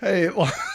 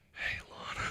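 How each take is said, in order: First: It is said in a normal voice. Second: It is whispered.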